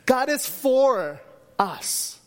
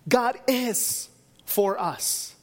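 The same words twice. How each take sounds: First: The stress is on "for". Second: The stress is on "is".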